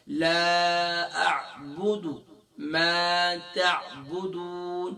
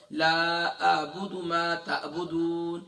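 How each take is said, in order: First: The ع of اعبد squeezed from the mid throat; a proper ain in اعبد, slow and drawn; the corrected take, with a real ain. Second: اعبد opened with a plain glottal stop, the mistake; the wrong hamza sound in اعبد; the wrong take, said with a hamza; hamza instead of ain. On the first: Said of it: "ہم نے یہاں پر عین کا sound پیدا کرنا ہے". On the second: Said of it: "ہم اسے حمزہ کی آواز نکالتے ہیں". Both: Shown as a demonstration.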